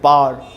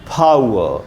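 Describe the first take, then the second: First: Said as one long syllable ending in r. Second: Said with breathy p, ending in ow-uh without r. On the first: The speaker calls it wrong. "English medium बोलते हैं पार" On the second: The speaker calls it right. "सही उच्चारण है फाउ"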